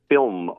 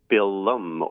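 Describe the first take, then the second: First: It is said as one syllable without extra vowel. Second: A short vowel is inserted, making two syllables.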